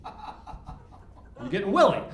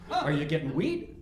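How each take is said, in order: First: Slow, drawn-out "Willie" with a laugh; "Willie" said slowly, with a laugh; stress on Willie. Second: Said in the usual way. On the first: Shown as a demonstration. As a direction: lean on "Willie" and stretch it. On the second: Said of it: "you never knew".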